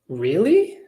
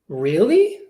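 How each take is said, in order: First: The voice sounds interested. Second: The same.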